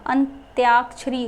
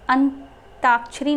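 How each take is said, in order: First: अंत्याक्षरी said ant-yaak-shri with a clear य; correct form. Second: अंताक्षरी said ant-aak-shri with no य; wrong form अंताक्षरी, plain t before aa. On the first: Teacher giving students the correct form, y sound in अंत्याक्षरी. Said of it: "अंत्याक्षरी होता". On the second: Teacher showing students the wrong form, no y sound in अंताक्षरी. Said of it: "अंताक्षरी नहीं होता". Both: Shown as a demonstration.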